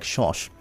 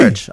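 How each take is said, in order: First: The word begins and ends with an 'sh' sound. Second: The word begins and ends with a 'ch' sound.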